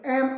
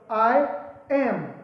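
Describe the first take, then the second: First: The two words merge into one syllable. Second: It is said as two separate words.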